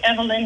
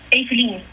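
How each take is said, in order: First: The name is said with an American pronunciation. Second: The name is said with a Dutch pronunciation. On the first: This is the form used in America. "I go with Evelyn here in America" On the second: This is the form used in Europe. "how would you pronounce it in Europe?"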